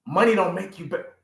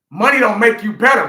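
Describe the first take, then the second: First: Said in the usual way. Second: Louder emphatic repeat. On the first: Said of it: "Money don't make you better, man". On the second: Real, not acted. To the listener, repeating it louder for emphasis. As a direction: raise it and lean on better.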